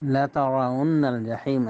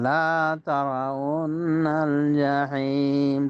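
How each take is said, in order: First: The first vowel is short, not drawn out. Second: The first vowel is drawn out long. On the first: You will surely see hell. The speaker calls it right. "অর্থ হলো অবশ্যই তোমরা জাহান্নামকে দেখবে" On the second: You will not see hell. The speaker calls it wrong. "তখন অর্থ হবে তোমরা দেখবে না জাহান্নামকে"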